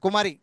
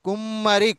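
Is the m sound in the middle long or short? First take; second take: short; long. First: The m sound is short and single. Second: The m sound is long and doubled. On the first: The speaker calls it wrong. "ఒకవేళ మా ఒత్తు రాయకపోతే కుమరి అవుతుంది" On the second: The speaker calls it right. "ఒత్తి పలుకుతాం"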